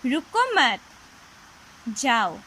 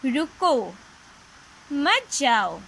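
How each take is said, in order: First: There is a pause after मत. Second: There is a pause after रुको.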